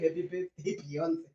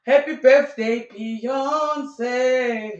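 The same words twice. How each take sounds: First: Much quieter repeat of the birthday wish; softly echoed greeting. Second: Loud, high, drawn-out sing-out; sung, belt out a birthday greeting; sung, gushing birthday greeting. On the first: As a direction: echo the greeting under your breath. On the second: Mock birthday post gushing over a friend. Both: Acted.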